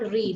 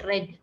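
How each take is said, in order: First: The vowel is long, like in 'reed'. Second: The vowel is short, like in 'red'. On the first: It is the present form. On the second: It is the past form.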